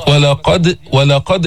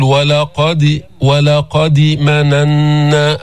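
First: ولقد with the dal's bounce tilted slightly toward i; ولقد, a bounce on د just leaning toward kasra; qalqala leaning to kasra. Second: ولقد said with a short i after the dal, like walaqadi; slow ولقد مننا with a wrong i vowel on the dal's bounce; wrong kasra qalqala. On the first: Teacher showing qalqala leaning toward kasra. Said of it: "هيك أميل للكسر". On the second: Teacher showing students the wrong way to bounce the dal. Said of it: "هذا كسر". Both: Shown as a demonstration.

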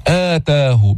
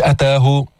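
First: "آتاه" with a lengthened opening "aa"; madd badal. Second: "أتاه" with a brief opening "a"; short first vowel. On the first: Teacher corrects it since meaning changes, long opening "aa" in "آتاه". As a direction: stretch the first vowel, "aa-taahu" for "آتاه". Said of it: "كمان في مد بدل". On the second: Teacher shows the wrong form, short opening vowel in "أتاه". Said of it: "مش أتاه". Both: Shown as a demonstration.

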